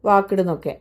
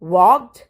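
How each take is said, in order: First: The ending is said as an extra syllable. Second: The ending is a short consonant, no extra syllable. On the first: The speaker calls it wrong. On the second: The speaker calls it right.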